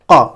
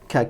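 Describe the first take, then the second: First: The k sound is deep, resonating in the mouth. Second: The k sound is light, without deep resonance. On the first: "vous voyez bien que le son il est emphatisé" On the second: "c'est pour faire le K"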